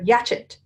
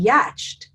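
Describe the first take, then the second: First: It is said as two syllables ending chet. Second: It is said with a ch sound before t. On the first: "Or yatchet" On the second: "It would be yatched, right?"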